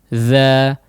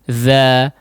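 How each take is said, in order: The two takes are said the same way.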